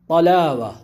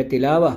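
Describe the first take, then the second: First: "طلاوہ" begun with a thick back-of-mouth T; heavy first letter. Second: "تلاوہ" begun with a plain thin T; light T. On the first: Teacher reading out the written word, heavy T opening "طلاوہ". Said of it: "پہلا حرف طا ہے". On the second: Teacher contrasting two words by meaning, light T opening "تلاوہ". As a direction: keep the first sound of "تلاوہ" light, not thickened. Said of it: "اگر تا کے ساتھ ہے". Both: Shown as a demonstration.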